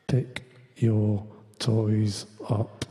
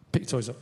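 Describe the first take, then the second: First: Low, drawn-out menacing "Pick your toys up"; menacing threat. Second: Said in the usual way. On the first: Shown as a demonstration. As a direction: psychological threat to the kids, low and very slow. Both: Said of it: "Psychological threats".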